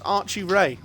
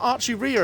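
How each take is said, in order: First: The surname sounds like 'ray'. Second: The surname sounds like 'ree-a'. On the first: The speaker calls it right. "It's Archie Ray" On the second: The speaker calls it wrong. "it's not Archie Rhea apparently"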